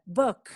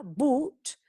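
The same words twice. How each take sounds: First: "book" with a short, central uh-like vowel; "book" said with the French-like schwa, cut short. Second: "boot" with a drawn-out oo; "boot" said boooot, clear long vowel. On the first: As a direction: keep the vowel of "book" brief and lax, not oo. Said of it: "El otro es e". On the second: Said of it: "uno es bu". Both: Shown as a demonstration.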